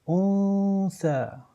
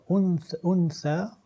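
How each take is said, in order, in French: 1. Le son n est prononcé à moitié, il se fond dans th. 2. Le son n est prononcé en entier et clairement. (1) "le nun sakin va être lu à moitié" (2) "au lieu de dire untha"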